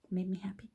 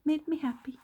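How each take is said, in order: First: Whispered made me happy; unvoiced private whisper; soft whisper. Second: High, laughing repeat of made me happy; giddy laughing echo. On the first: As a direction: breathe it out, voice off. Says it twice, differently. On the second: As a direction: laugh it out, pitch jumps up. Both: Real, not acted.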